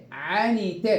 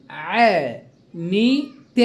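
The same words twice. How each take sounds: First: Said in the usual way. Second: "عنيت" broken slowly into three stretched, separate syllables. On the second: Shown as a demonstration. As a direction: sound out "عنيت" slowly, pausing between each syllable. Teacher splits word into syllables. (نطق «عنيت» ببطء مقطعًا مقطعًا)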